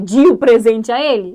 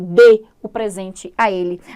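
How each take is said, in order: First: The first word is weak with an 'ee' vowel. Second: The first word is stressed with a clear 'e' vowel. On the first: The speaker calls it wrong. "Dá para eu ler nessa frase, de o presente a ele? Não dá" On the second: The speaker calls it right. "agora é forte, é tônico"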